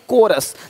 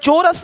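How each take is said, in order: First: The word begins with a k sound. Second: The word begins with a ch sound. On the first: The speaker calls it right. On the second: The speaker calls it wrong. "चोरस नहीं"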